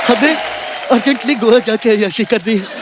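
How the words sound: It is said in a tearful, crying voice. "भैया ऐसे मत रोइए"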